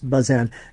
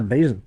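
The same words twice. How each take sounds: First: The name is pronounced the French way. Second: The name is pronounced the local American way. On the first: This is how the man himself said it. The speaker calls it right. "he was born of Huguenot parents in Boston, and so it's it's" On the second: This is how people in the town say it. The speaker calls it wrong. "They all say"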